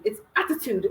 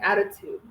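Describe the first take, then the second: First: "attitude" with every letter pronounced; Ghanaian correction. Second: "attitude" said softly with loose Ts; soft pronunciation. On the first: Retold or imitated. Imitating a Ghanaian correcting them, "attitude" fully sounded. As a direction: sound each T firmly in "attitude". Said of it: "Every single letter has to be pronounced". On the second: Shown as a demonstration. Retelling their own way of saying it, "attitude" softened. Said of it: "Why are you saying so softly?".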